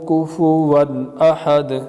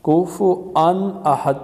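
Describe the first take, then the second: First: A w sound is used in the middle. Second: A glottal stop replaces the w sound. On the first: The speaker calls it right. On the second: The speaker calls it wrong.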